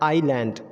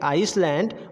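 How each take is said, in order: First: The s sound is left out entirely. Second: The s sound is pronounced in the middle. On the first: The speaker calls it right. "वो हमारा हो जाएगा" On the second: The speaker calls it wrong. "जो हम अब तक गलत प्रोनाउंसिएट करते थे"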